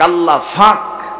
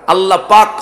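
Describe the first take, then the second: First: It is said with a Noakhali f sound. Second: It is said with a standard Bengali p sound.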